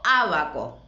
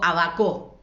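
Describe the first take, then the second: First: The stress is on the first syllable. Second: The stress is on the middle syllable. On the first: The speaker calls it right. "digo abaco" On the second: The speaker calls it wrong. "ni digo abaco"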